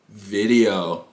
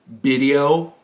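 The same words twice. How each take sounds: First: Said in the usual way. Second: "Video" said as bidio, with a B; Japanese pronunciation. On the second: Retold or imitated. [name] translating his words for teacher, "Video" as Japanese bidio.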